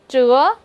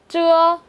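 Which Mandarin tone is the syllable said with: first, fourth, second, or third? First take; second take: second; first. First: The pitch rises from mid to high. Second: The pitch stays high and level.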